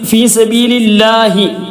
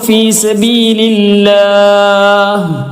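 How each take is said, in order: First: The phrase ends with a short final i vowel. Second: The phrase ends on a bare h, no vowel. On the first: The reading continues without stopping. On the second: The reading stops at this word.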